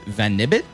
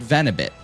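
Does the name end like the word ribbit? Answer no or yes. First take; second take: yes; no. First: The name ends like the word ribbit. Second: The name does not end like ribbit. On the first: This is the speaker's own way of saying it. "I pronounce it like, um, like the word ribbit, but with venom" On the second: This is how someone else says it. "but he calls it Venibit"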